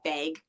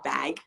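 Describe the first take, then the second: First: It is said with a Canadian-style accent. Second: It is said in a plain accent.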